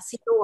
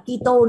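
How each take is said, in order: First: The word begins with an s sound. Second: The word begins with a k sound. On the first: The speaker calls it right. "mà là Sito ạ" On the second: The speaker calls it wrong. "Sẽ không phải là Kito nữa"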